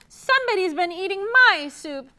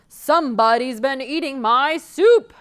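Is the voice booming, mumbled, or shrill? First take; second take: mumbled; booming. First: It is said in a low mumbling voice. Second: It is said in a loud booming voice.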